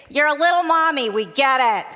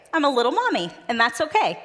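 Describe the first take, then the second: First: Put-on higher and louder, a kids' chorus rolling their eyes; bored kids mocking. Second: Put-on reassuring the kids. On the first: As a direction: sing it back like bored kindergartners, a little loud. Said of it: "the kids would say". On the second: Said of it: "And I'd say".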